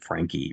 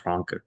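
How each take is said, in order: First: The name is said with an American pronunciation. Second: The name is said with a German pronunciation. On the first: "the American way" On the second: "he pronounced it the German way"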